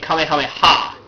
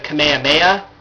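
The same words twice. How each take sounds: First: The final 'ha' is stressed and set apart. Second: The final 'ha' is merged into one smooth word. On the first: "They stress it" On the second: "merging it all into one word"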